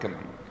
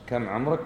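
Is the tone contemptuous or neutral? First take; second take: contemptuous; neutral. First: It sounds scornful and belittling. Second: It sounds like a plain, neutral question. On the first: The asker looks down on the other person. "الثانية احتقار" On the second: The asker simply wants to know the age. "الأولى مجرد سؤال بعرف عمرك كم"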